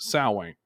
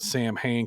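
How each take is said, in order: First: It is said in a different, traditional form. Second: It is sounded out as 'Sam Hain'. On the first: The speaker calls it right. "but it's pronounced Samhain" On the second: The speaker calls it wrong. "Most people they pronounce it Sam Hain because that's the way it's spelled"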